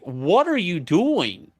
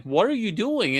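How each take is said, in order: First: Slow, drawn-out and higher, demanding; what are you doing, slow and incredulous; exasperated demand. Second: Higher, insistent; high, exasperated what are you doing; incredulous demand. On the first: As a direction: press her for an answer, baffled. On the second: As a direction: push her for an answer. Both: Retold or imitated. Confronting wife over hidden charms.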